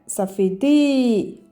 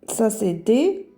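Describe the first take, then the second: First: The vowel is drawn out long. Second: The vowel is short.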